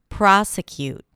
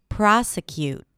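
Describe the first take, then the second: Both takes have the same delivery.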